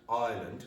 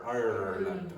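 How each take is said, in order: First: The R is silent. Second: The R is clearly sounded. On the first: This is how people in England say it. "which is what an English person from England would do" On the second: This is how the speaker says it. "listen to the way I pronounce the country"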